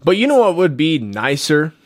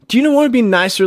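First: Said in the usual way. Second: Emphatic repeat. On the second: Real, not acted.

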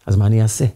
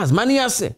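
First: Said in the usual way. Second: Pitched far up, pleading with himself; the boy's anguished question, high and pleading; desperate high cry. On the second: Acted. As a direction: ask it high and helpless, torn over the coin. Boy torn over the coin.

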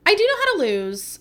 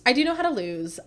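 First: Higher and louder, how hit hard; emphatic insistence. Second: Said in the usual way. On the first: Shown as a demonstration. Telling viewers she can handle losing, emphatic.

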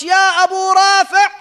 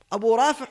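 First: Loud, high shout across the treasury; storming in and shouting for the treasurer, loud and high; yelled call. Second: Said in the usual way. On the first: Retold or imitated. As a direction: bellow the name to summon him. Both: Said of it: "he yelled out".

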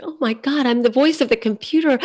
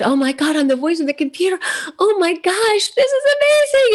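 First: Retold excitement, a notch higher; mildly thrilled recalled gasp. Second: Giddy retold excitement that soars up high; overjoyed. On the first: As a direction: replay the first flush of delight, lightly. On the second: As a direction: build the thrill until the voice flies up high. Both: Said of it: "where I was like".

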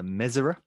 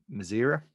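First: "Mezera" stressed at the start, MEZ-er-uh; correct pronunciation. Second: "Mazera" stressed in the middle, muh-ZEER-uh; common pronunciation. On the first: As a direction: hit the first syllable of "Mezera". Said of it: "correct pronunciation". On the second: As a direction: say "Mazera" with a long second syllable. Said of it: "is the actual pr-, c-, correct". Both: Shown as a demonstration.

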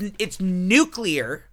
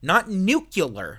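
First: "nuclear" said slowly as new-clee-er; teaching the right "nuclear"; correct nuclear. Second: "nuclear" said slowly as new-kyuh-ler; mock the mistake, nu-kyuh-ler, slowly; mocking the wrong "nuclear". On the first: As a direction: spell it out as nu-clear, slowly. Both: Shown as a demonstration.

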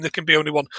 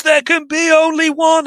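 First: Said in the usual way. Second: High-pitched, half-restrained mock scream. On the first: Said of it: "you kind of have to scream". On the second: Retelling the hero's tagline, mock screamed. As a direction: imitate a triumphant movie scream, pitch way up. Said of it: "And he screams".

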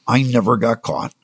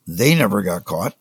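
First: I never got caught, with I stressed. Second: They never got caught, with they stressed. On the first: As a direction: lean on the word I, falling end. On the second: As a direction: correct himself by stressing they, rising end. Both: Shown as a demonstration.

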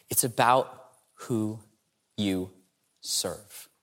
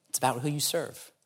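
First: It's about who, pause, you, pause, serve, slow and fading to almost a whisper on serve; slow dramatic pauses. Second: Said in the usual way. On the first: Shown as a demonstration. Speaker to the audience, slow paused build to the key point.

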